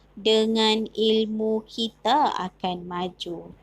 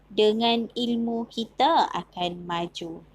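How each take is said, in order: Both takes have the same delivery.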